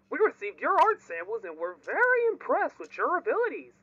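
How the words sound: It is read in a put-on Joey Drew voice.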